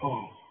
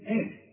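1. الهمزة تُنطق ثقيلة وغليظة. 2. الهمزة تُنطق خفيفة ورقيقة. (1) "إذا ما نقولش آه" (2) "كل همزة في القرآن ترقق"

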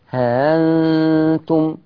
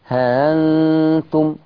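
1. الحركة قصيرة والهمزة مسهلة. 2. الحركة قصيرة والهمزة مسهلة.

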